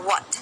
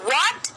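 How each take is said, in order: First: The word is said flatly, without extra force. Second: The word is said forcefully, with strong emphasis. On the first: The speaker calls it wrong. "What ऐसे नहीं बोला, what नहीं" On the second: The speaker calls it right. "थोड़ा सा जोर दिया चीजों के ऊपर"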